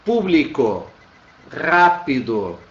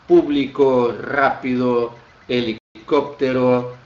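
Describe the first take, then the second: First: Público and rápido said slowly, stress on the first syllables pú and rá; example words. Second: Público, rápido, helicóptero read out clearly, stress on pú, rá and có; example words again. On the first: Teacher listing example words for the class, slow and careful. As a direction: spell out público, rápido with weight up front. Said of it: "palavras como". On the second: Teacher repeating the example list to students, measured and clear. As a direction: run through the examples, leaning on each stressed syllable. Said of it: "todas esdrúxulas são acentuadas".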